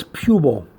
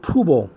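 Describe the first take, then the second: First: Pubal said PYOO-bul; preferred pronunciation. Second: Pubal said POO-bul, no y sound; alternative pronunciation. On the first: Teacher correcting how some people say it, PYOO-bul. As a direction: say pubal with a y glide before the oo. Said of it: "but it's pubal". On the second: Teacher showing how some people may pronounce it, POO-bul. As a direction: say pubal with a plain oo. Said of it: "Some people may pronounce it pubal". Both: Shown as a demonstration.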